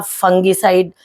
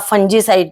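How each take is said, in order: First: फंगीसाइड with a hard "g"; a hard "g" after the nasal in फंगीसाइड; hard g pronunciation. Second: फंजीसाइड with a "j" sound; soft "g", like "j", in फंजीसाइड; soft g pronunciation. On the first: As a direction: say फंगीसाइड as "fung-gee-side". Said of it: "आपको बोलना भी नहीं आता". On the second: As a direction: say फंजीसाइड as "fun-jee-side". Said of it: "correct pronunciation जो है वो फंजीसाइड". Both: Shown as a demonstration.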